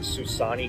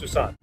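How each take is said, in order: First: The final vowel is clearly pronounced. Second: The final vowel is nearly dropped. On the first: "we as Americans would pronounce it Susani" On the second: "they kind of drop it almost. You barely hear it"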